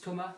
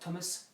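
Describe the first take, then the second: First: The final s is silent. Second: The final s is sounded. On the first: The speaker calls it right. "my name is Thomas" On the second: The speaker calls it wrong. "not Thomas"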